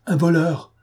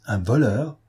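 First: Un voleur stated high and firm, not a question; firm affirmation. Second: Voleur rising in alarm, a mild cry; startled question. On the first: Confirm it flatly, with conviction. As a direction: Gachard insists to the marquise, firm affirmation. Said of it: "affirma monsieur Gachard". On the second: A mild shocked question, rising at the end. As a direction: marquise startled by news of a thief, rising question. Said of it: "s'écria madame de Langeais". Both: A narrator's reading.

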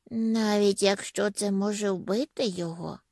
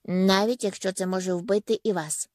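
First: Mild alarm, understated; slightly scared, questioning tune; frightened question. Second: Measured, final falling statement; understated, unyielding insistence; firm reply. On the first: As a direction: ask it with a touch of fear. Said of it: "злякався Меллі". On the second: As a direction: answer firmly, without alarm. Firm reply to frightened question. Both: A narrator's reading.

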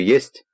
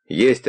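First: ЕСТЬ with the voice rising high; questioning. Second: ЕСТЬ drawn out slowly as a statement; answering. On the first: Man retells asking a child about his mother, questioning ЕСТЬ. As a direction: ask ЕСТЬ as a question, pitch climbing. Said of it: "А мать спрашиваю". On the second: Man retells the child's reply about his mother, answering ЕСТЬ slowly. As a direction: answer ЕСТЬ without a questioning rise, slow. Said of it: "отвечает". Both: Retold or imitated.

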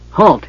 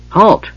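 First: Short, high-pitched order to stop; commanding. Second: Belated high call, not really meant; half-hearted. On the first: Warrior stopping running gully dwarves, commanding. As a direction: call out firmly, voice raised. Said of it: "his huge arm raised commandingly". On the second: Warrior calling after vanished dwarves, half-hearted. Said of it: "he said half-heartedly". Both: A narrator's reading.

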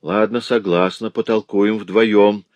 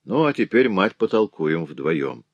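First: Slow, defiant louder agreement. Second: Холодно и медленно; cold. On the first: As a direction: accept the challenge out loud. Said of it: "громко сказала вдова". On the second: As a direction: lay it out icily to his mother. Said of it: "Марсиаль холодно сказал ей". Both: A narrator's reading.

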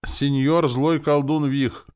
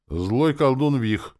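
First: Slow, high, loud ceremonial address; solemn. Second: Slow, higher, spelled-out answer; patient. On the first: Soldier addressing his new lord, solemn. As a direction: proclaim it like an oath. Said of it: "торжественно заговорил парень". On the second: Elf answering soldier's question, patient. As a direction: explain it patiently, word by word. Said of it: "терпеливо ответил Чивагор". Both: A narrator's reading.

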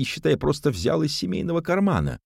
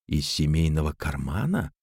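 First: Indignant. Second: Said in the usual way. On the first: A narrator's reading. Cousin justifies the theft. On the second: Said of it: "без выражения проговорила Жанна".

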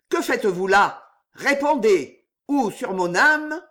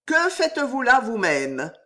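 First: Louder, higher demand for answers; furious challenge. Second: Cool, higher-pitched retort that ends on a rise, "Que" lifted with contempt; stern disdain. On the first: Knight demanding answers from the strangers, furious. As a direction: threaten them, voice driven by jealous rage. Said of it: "d'une voix rauque de fureur". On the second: The king rebuffing the young knight, disdainful. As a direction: toss the question back, supremely unimpressed. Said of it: "une voix sévère, un peu molle et traînante". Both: A narrator's reading.

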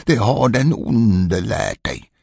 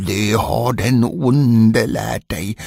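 First: Mild yell. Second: Mild fury. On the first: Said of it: "skrek han". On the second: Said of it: "blev mannen rasande". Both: Acted.

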